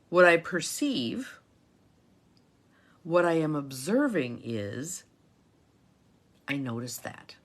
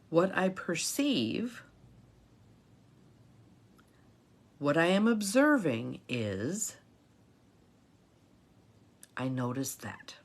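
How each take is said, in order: First: It is said at a normal pace. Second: It is said a little more slowly.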